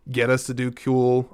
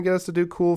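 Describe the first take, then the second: First: "cool" mispronounced with a "kyoo" sound; odd "cool". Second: Said in the usual way. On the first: Real, not acted. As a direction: say "cool" as "kyool". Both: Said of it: "why do they say it like that".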